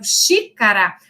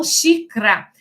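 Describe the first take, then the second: First: Said in the usual way. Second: Xícara said as xicra, middle vowel dropped; reduced colloquial form. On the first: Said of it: "Ao invés das pessoas falarem". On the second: Shown as a demonstration. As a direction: clip xícara to two quick syllables, xicra. (xícara reduzida para xicra, sem a vogal do meio)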